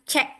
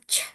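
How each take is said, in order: First: The consonant is followed by a vowel. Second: A bare consonant sound with no vowel. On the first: This is the name of the letter. "nama hurufnya" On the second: This is the sound the letter makes. "bunyi hurufnya"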